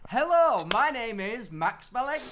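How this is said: It is said in a highly confident way.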